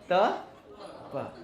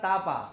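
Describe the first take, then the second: First: The vowels are short, ending in a short 'a'. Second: The vowels are long, ending in a long 'aa'. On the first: The speaker calls it right. "अरे तापा नहीं, त प" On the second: The speaker calls it wrong. "कोई बोलता है तापा"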